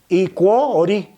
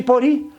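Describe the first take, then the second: First: The word is said with a 'kw' sound. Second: The word is said with a 'p' sound. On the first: This is how it is said locally. "pero aquí se pronuncia Icuo-Ori" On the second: This is the usual pronunciation. "se pronuncia Iporí"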